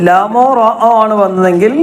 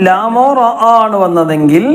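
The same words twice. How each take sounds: The two takes are said the same way.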